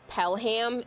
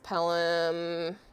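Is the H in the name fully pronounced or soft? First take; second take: full; soft. First: The H in the middle is fully pronounced. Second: The H in the middle is soft. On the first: The speaker calls it wrong. "It's not Pelham" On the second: The speaker calls it right. "you gotta do like a soft H with all of these"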